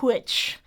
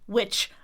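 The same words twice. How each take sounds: First: It starts with a breathy h before w. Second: It starts with a plain w sound.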